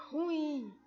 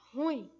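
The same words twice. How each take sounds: First: Drawn-out ruim, weight on RU; mispronunciation. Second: Ruim with stress on IM; correct pronunciation. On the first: Teacher rejecting the common error, ruim stressed on RU. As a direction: stretch ruim as RÚ-im. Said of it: "A palavra não é". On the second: Teacher giving the correct form, ruim stressed on IM. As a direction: say ruim as ru-IM, landing on the end. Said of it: "O correto da pronúncia dela é". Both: Shown as a demonstration.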